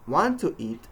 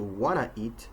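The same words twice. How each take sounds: First: "Want to eat" with the T and "to" kept; full unreduced form. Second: "wanna eat" with "want to" squeezed, no T; reduced phrase. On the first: Teacher showing phrase reduction, "Want to eat" spoken in full. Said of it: "combining or squeezing parts". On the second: Teacher showing what it changes into, reduced "wanna eat". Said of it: "changes into". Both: Shown as a demonstration.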